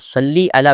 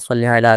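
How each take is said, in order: First: The word ends with an 'ee' vowel sound. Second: The word ends with an 'ay' vowel sound. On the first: The speaker calls it right. "वैसे ये सही तलफ़्फ़ुज़ है" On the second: The speaker calls it wrong. "मजहूल जो लहजा है वो तो सल्ले का है"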